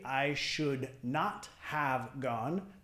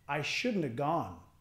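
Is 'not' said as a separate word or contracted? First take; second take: separate; contracted. First: Not is said as a separate full word. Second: Not is contracted onto should. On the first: The speaker calls it wrong. "no vamos a decir I should not have gone" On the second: The speaker calls it right. "Vamos a decir shouldn't"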